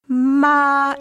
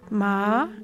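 First: The pitch stays level and flat throughout. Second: The pitch glides gently upward. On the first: "it's a flat tone" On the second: "a gentle upward gliss"

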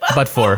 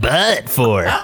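First: The phrase is said plainly, without extra force. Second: The phrase is said with heavy, exaggerated force. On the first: The speaker calls it right. "You just say but for" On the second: The speaker calls it wrong. "But you're like, but for"

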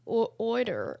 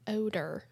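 First: It is said like 'order', with an r. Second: It is said like 'odor', without an r. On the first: "it's like order, almost" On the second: "the way that he pronounces the word odor"

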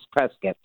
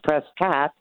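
First: It is said the local Arizona way. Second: It is said the way Californians say it. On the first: The speaker is from Arizona. "If you're from Arizona, it's Prescott" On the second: The speaker is from California. "I guess if it's California, it's Prescott"

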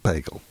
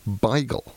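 First: The first syllable sounds like 'bay'. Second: The first syllable sounds like 'bye'. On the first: The speaker calls it wrong. "it's not bagel" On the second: The speaker calls it right. "it's beigel. B-I-G-E-L"

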